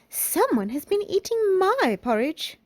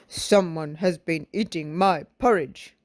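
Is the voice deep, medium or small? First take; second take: medium; deep. First: A medium, moderate-pitched voice. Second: A deep, gruff, cross-sounding voice. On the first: A medium-sized character speaks. "in her middle-sized voice" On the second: A large, angry character speaks. "in his great big cross voice"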